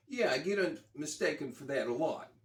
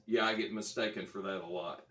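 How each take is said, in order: First: Put-on a rough try at a thick New York accent, pitched up; half-hearted New York accent, voicing the rock star; attempted New York accent. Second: Said in the usual way. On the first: Retelling the rock star's reply in a tentative New York accent. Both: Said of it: "I can't do a New York ac".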